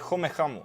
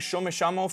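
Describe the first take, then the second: First: The first word starts with a sound further back. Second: The first word starts with a sh sound. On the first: This is how future Argentinians might say it. "that sh got moved farther back in my mouth to like a ch" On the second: This is how Argentinians say it now. "instead of saying"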